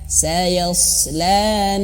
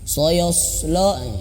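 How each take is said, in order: First: Only the first sound is thick; the others are thin. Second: All the vowels sound thick and dark. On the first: The speaker calls it right. "Biar tipis ya, biar tidak terbawa tebal" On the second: The speaker calls it wrong. "akhirnya huruf yang lain terbawa tebal"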